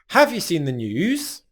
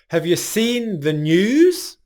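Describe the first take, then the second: First: The vowel in 'have' is full and strong. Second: The vowel in 'have' is reduced to schwa. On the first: "use the full strong pronunciation of have" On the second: "We're going to take that a vowel sound and reduce it to a schwa sound"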